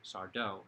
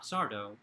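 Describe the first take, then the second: First: The stress is on the second syllable. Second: The stress is on the first syllable. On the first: The speaker calls it right. "accent on the dough" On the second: The speaker calls it wrong. "Not Sardo"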